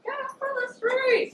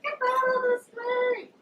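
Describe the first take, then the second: First: High, slow drawn-out yell; mock furious yell at the man in the street; retold shout. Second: High, slow stretched-out yell; hammed-up yell at the man in the street; retold shout. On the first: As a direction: bellow it out slowly, exasperated. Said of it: "I'm like". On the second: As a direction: holler it, stretching each word. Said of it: "I was like".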